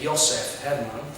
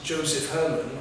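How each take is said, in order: First: The name is said the Polish way. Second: The name is said the English way.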